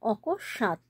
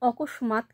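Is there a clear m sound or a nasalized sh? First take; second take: nasalized sh; m sound. First: A nasalized sh is heard, with no m. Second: A clear m sound is heard after sh. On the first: The speaker calls it right. "শয়ের মাথায় একটা চন্দ্রবিন্দু আমরা লাগিয়ে দিচ্ছি" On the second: The speaker calls it wrong. "অকস্মাৎ কিন্তু নয়"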